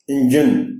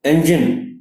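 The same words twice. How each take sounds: First: इंजन with a short i start; इंजन, start on a clear i; correct engine. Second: इंजन with an e-like start; इंजन said the Urdu way; wrong engine. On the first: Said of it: "चूंकि हम इंजन कहते हैं उर्दू में". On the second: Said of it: "इंजन कह जाते". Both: Shown as a demonstration.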